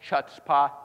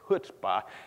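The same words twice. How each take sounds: First: It begins with a ch sound as spelled. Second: It begins with a throaty h sound. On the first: The speaker calls it wrong. "I know it's spelled chutzpah. It's not how you say it" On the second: The speaker calls it right. "It's chutzpah. Got to say this right"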